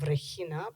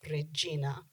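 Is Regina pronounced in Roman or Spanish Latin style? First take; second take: Spanish; Roman. First: It is pronounced in Spanish Latin style. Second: It is pronounced in Roman Latin style. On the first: "instead of Regina" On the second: "they're still saying Regina"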